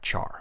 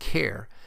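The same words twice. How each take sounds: First: It does not sound like 'character' begins. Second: It sounds like the start of 'character'. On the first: "I've always pronounced it as the type char" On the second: "You may hear people pronounce it as type char since it is short for character"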